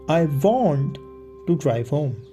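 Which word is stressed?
want. The word "want" is stressed. The speaker insists on really wanting it. "I'm insisting I actually want to do it"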